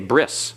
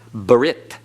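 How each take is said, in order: First: The word ends with an s sound. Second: The word ends with a t sound. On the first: "it's an S. So they say bris in modern Hebrew" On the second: "The tau is no longer pronounced as a T"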